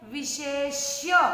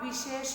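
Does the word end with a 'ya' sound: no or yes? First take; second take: yes; no. First: The word ends with a final 'ya' sound. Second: The word ends without a final 'ya' sound. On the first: The speaker calls it right. "आखिरी में य यति का भी बोलना है।" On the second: The speaker calls it wrong. "इसको आप विशेष नहीं बोलोगे।"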